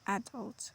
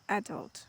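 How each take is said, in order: No difference in how they are said.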